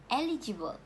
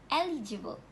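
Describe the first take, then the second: The two takes are said the same way.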